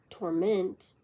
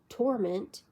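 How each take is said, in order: First: The stress is on the second syllable. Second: The stress is on the first syllable. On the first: It is used as a verb. "verb torment" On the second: It is used as a noun. "noun torment"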